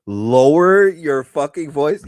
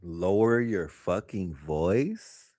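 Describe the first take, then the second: First: Louder, outraged echo; loud, outraged repeat; loud incredulous repeat. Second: Slow, low disbelieving echo; slow, low incredulous repeat; incredulous mock repeat. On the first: Retold or imitated. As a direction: throw the line back louder in disbelief. Repeating the therapist in disbelief. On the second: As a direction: drag it out like you can't believe she said it.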